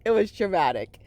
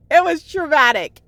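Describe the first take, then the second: First: Said in the usual way. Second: It was traumatic said higher and louder, voice lifted by emotion; emotional outburst. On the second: Real, not acted. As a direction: blurt It was traumatic out as the feeling overwhelms you. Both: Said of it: "I'm, like, getting emotional now".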